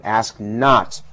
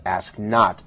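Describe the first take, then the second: First: JFK-style emphasis on "not"; stress on not. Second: Said in the usual way. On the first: Shown as a demonstration. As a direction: ask NOT, with the weight landing on "not". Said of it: "his emphasis on the word". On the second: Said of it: "doesn't sound nearly as powerful as".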